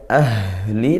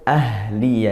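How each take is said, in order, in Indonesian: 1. Huruf h didorong keluar dengan nafas berat dan dalam. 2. Huruf h punya aliran nafas yang ringan dan sedang. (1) "tidak perlu sampai berlebihan ahli" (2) "tapi cukup ahli ya, dari tenggorokan"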